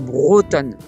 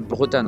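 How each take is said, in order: First: The first syllable is pronounced with an 'o' vowel. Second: The first syllable is pronounced like 'Bre' in Bretagne. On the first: The speaker calls it right. "on dit bien Bretonne" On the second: The speaker calls it wrong. "pas Bretonne. Hein. On n'est pas en Bretagne ici"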